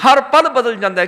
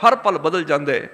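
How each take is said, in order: First: ਪਲ stressed, the whole line louder and higher; emphatic repeat. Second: Said in the usual way. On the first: Shown as a demonstration. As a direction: hammer home ਹਰ ਪਲ on the repeat.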